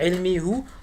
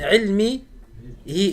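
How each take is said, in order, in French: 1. La terminaison se prononce avec la voyelle u. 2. La terminaison se prononce avec la voyelle i. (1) "et non pas ilmi hu" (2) "min ilmi hi"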